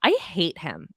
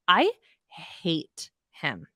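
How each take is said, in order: First: Said in the usual way. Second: Slow, stretched and heavy; drawn-out disgust. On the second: Real, not acted. Host repeating her hatred of Louis, slow and drawn out. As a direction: let each word drag with loathing.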